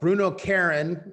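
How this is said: The name is said with an American accent.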